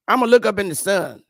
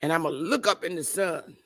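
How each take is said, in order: First: Louder repeat, "look" punched hard; mock defiant boast. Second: Said in the usual way. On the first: Mocking stoners to his viewers, loud defiant repeat. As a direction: belt out "I'ma look up in the sun" like a dare.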